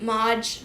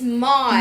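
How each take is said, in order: First: The word ends with a J sound. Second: The word ends with a D sound. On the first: The speaker calls it wrong. "people say Mod Podge" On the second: The speaker calls it right. "But it's Mod"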